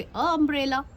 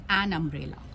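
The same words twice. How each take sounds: First: "अ umbrella" higher, with no n; wrong article, questioned. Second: "एन umbrella" lower, with a clear n; correct article shown. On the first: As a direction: offer "अ umbrella" as a doubtful try, bare uh article. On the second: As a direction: answer firmly "एन umbrella", an before the vowel. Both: Shown as a demonstration. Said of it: "No, आप क्या लगाएंगे?".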